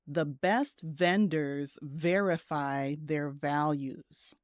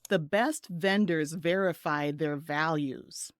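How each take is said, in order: First: The sentence is spoken a little slowly. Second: The sentence is spoken at a normal pace. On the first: "I'll say it a little slowly" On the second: "Just listen"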